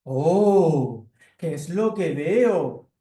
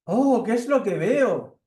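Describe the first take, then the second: First: Loud, slow, different-voiced cat; cat at the window, loud and slow. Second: High, slow, loud surprised mouse; surprised mouse at the window, high and slow; little mouse. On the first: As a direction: stretch out the surprise like a big cat. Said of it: "el gato aparece por la ventana y dice". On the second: Acted. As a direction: peer in the window amazed, squeaky and slow. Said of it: "aparece por la ventana una ratoncita".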